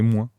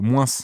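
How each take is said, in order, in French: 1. Le S final est muet. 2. Le S final est prononcé. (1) "pour moi, c'est c'est moins" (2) "vous prononcez les les S, heu, en fin de en fin de phrase souvent"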